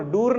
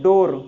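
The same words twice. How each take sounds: First: "डूर" with a long oo vowel; wrong vowel. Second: "डोर" with an oh vowel, firm and loud; correct vowel. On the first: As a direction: say "डूर" with oo, the mistaken sound. ("डूर" में लंबी ऊ की आवाज़) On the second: ("डोर" में ज़ोर से ओ की आवाज़) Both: Shown as a demonstration. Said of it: "डोर, डूर नहीं".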